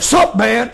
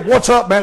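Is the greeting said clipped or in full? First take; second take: clipped; full. First: The greeting is clipped to one short syllable. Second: The greeting is said in full, both words. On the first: This is how young men say it. "They say" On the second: This is the standard way of saying it. "They don't say"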